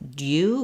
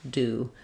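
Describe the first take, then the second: First: A gliding y sound comes before the oo. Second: Plain d goes straight into oo, no glide. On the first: "In British English, this one they're going to do as dew with a gliding sound" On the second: "for us, all of them are just the d sound and the oo sound"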